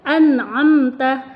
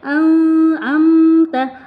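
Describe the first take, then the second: First: The n sound is clear and distinct. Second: The n sound is blurred and nasal. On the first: The speaker calls it right. "Jadi harus jelas ya" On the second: The speaker calls it wrong. "nggak boleh an'amta, an, nggak boleh disamarkan"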